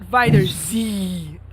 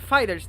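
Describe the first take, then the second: First: The name ends with the letter 'zee' spelled out. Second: The name ends in a plain 's' sound. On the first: The speaker calls it wrong. "not Fighters Z" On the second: The speaker calls it right. "It's pronounced Fighters"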